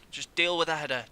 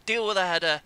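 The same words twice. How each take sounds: First: Exasperated. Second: Louder, higher exasperated yell; exasperated shout. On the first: Shouting at defenders. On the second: Gamer shouting at his defenders to clear a header, loud exasperation. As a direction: bark the order at the defenders. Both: Real, not acted.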